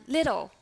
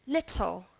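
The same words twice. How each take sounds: First: "little" with the T turned into a D; American flap T. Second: "little" with a crisp, true T; British T. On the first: Teacher contrasts the second example, American flap T. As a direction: say "little" like "liddle". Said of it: "how about American English". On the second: Teacher models the second example, British T. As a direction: sound the T in "little" fully, no D. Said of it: "The second one". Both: Shown as a demonstration.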